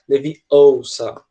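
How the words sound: British accent like Hermione, long emphatic vowels.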